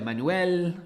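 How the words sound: The name is said with Italian-style pronunciation. This guesses how the name is said in its home country. "this is Italian, so maybe his name is like"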